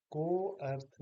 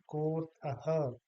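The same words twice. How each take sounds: First: को अर्थ with the अ sounded; two separate words. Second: कोर्थः as one word with a long को; joined, lengthened o. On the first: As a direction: say को, then अर्थ, unjoined. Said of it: "को अर्थ नहीं कहेंगे". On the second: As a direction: stretch the को in कोर्थः, no अ. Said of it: "को को हम थोड़ा सा ज्यादा बोलेंगे". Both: Shown as a demonstration.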